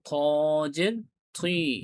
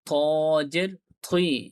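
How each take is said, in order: Both takes have the same delivery.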